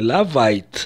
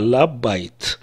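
First: The middle consonant is a V sound. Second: The middle consonant is a B sound. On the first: The speaker calls it wrong. "не «лавайт»" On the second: The speaker calls it right. "а «лабайт»"

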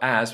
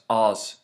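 First: The vowel is a flat a sound. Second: The vowel is an open ah sound.

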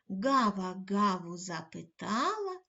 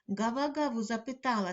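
First: The line is said at a slow pace. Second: The line is said at a fast pace. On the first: "кожного разу пришвидшуючи темп" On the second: "кожного разу пришвидшуючи темп"

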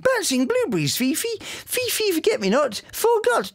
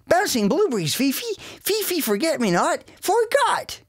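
First: It is spoken in a non-American accent. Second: It is spoken in an American accent. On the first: This is the original version of the show. "So Bumble went from" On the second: This is the version redubbed for the American market. "we recorded the whole thing again with American accents"

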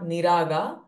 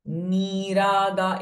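First: The vowel in the first syllable is short. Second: The vowel in the first syllable is long. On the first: The speaker calls it wrong. "it's not niraga" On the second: The speaker calls it right. "all these ni are dirghaswaras"

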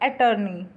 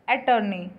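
Both takes have the same delivery.

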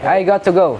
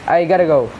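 First: The words got and to are said separately. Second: Got and to blend into one quick word. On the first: "This I got to go" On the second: "And this one is I gotta go"

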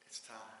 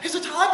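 First: It sounds calm and confident. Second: It sounds nervous and anxious.

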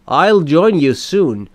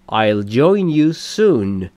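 First: 'I will' is shortened to one syllable. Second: 'I will' is shortened to one syllable.

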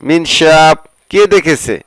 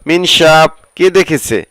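Both takes have the same delivery.

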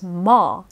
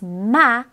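First: The vowel sounds darker. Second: The vowel sounds brighter. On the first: "in English" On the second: "Note how the vowel's a bit brighter in Japanese"

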